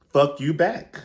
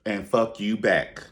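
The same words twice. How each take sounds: First: High, loud fuck you back with back rising; raised-pitch sassy comeback; sassy mock retort. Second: Said in the usual way. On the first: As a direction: fling it back at her. Clapping back at an insult.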